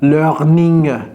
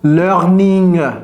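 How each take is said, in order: No difference in how they are said.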